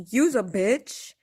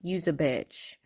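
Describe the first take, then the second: First: "Use a bitch" tossed out lightly, slow and loud; casual use a bitch. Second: "Use a bitch" dropped lower, cold and final; mean every word of "Use a bitch"; truly meaning it. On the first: Explaining her casual way of swearing, a loose offhand "Use a bitch". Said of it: "But when I say". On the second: Showing when she really means it, a cold, lower "Use a bitch". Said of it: "that's when I'm truly, like". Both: Shown as a demonstration.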